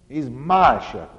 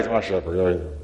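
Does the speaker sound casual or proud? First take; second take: proud; casual. First: It is said in a proud, emphatic way. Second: It is said in an offhand, indifferent way. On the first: This one specifically is mine, and I am glad of it. The speaker calls it right. "And there is a pride there" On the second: It could be anyone; it does not matter much. The speaker calls it wrong. "He's not saying, oh, yeah"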